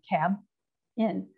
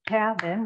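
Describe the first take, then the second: First: The word has a break between its syllables. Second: The word has no break between its syllables. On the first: The speaker calls it wrong. "So nobody talks like that. We don't say cab in" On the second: The speaker calls it right. "So it's cabin"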